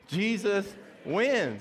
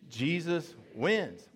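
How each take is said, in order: First: It is said loudly with strong conviction. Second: It is said in a plain, calm way.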